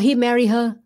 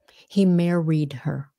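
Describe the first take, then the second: First: The final D sound of married is dropped. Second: The final D sound of married is pronounced. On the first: The speaker calls it wrong. "a lot of uh, Vietnamese may say" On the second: The speaker calls it right. "you have to have the D"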